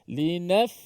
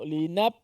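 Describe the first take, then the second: First: Air flows out audibly through the final consonant. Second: The lips close, cutting off the final consonant. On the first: The speaker calls it right. "Begitu eh" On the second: The speaker calls it wrong. "jangan tutup mulut ... bukan eh"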